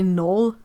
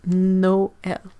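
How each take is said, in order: First: The vowel sounds run together smoothly. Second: The vowel sounds are clearly separated. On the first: The speaker calls it wrong. "in English you you would maybe say Noel" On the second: The speaker calls it right. "really separate"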